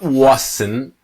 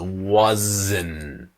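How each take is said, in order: First: The middle consonant is a hissing s sound. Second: The middle consonant is a buzzing z sound. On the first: The speaker calls it wrong. "So it's not wasn't" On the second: The speaker calls it right. "The S is Z. It's wasn't"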